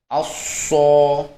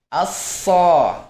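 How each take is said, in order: First: It is said with rounded, pushed-out lips. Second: It is said with spread, smiling lips. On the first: The lips help create the heavy sound for practice. "tidak mengapa untuk melatihnya dengan memonyongkan bibir" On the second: The heaviness comes from the tongue alone. "kita tersenyum pun bisa mengucapkan huruf sod"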